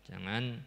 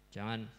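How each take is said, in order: The two takes are said the same way.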